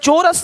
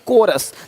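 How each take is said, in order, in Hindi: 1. यह शब्द ch ध्वनि से शुरू होता है। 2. यह शब्द k ध्वनि से शुरू होता है। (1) "चोरस नहीं"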